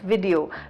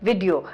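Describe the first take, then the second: First: The first syllable sounds like 'vih'. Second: The same.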